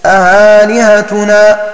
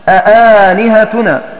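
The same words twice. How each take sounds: First: The second hamza is softened toward a vowel. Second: The second hamza is pronounced fully and clearly. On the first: "يسهلونها بين بين" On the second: "فالكوفيون يحققونها"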